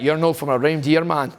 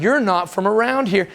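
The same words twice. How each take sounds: First: Lightly put-on Scottish "You're not from a reindeer" with reindeer for around here; a hint of Glasgow street kids; imitating Scottish accent. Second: Said in the usual way. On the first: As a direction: say "reindeer" the Glasgow way, run together. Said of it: "'Cause they're like". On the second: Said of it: "'cause you're like".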